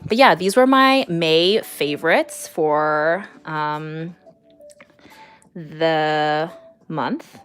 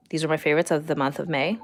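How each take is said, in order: First: Said in the usual way. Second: Quick, lightly German-accented English; a playful mock German accent, fast. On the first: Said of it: "German accent". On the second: Shown as a demonstration. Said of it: "English, words, German accent".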